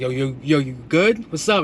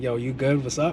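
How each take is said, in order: First: It sounds confrontational and aggressive. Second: It sounds concerned and caring.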